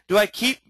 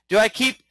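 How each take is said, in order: Both takes have the same delivery.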